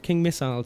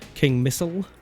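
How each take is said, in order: First: Missile is said the British English way. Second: Missile is said the American way.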